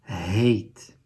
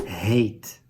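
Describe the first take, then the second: The two takes are said the same way.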